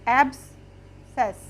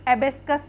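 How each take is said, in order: First: No k sound is heard in the middle. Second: A k sound is heard in the middle. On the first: The speaker calls it right. "इसको हम पढ़ेंगे एब्सेस" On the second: The speaker calls it wrong. "हम इसको एबेस्कस नहीं पढ़ेंगे"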